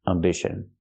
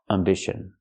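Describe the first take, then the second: The two takes are said the same way.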